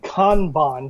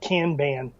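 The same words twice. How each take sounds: First: It is said in a non-American way. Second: It is said the American way.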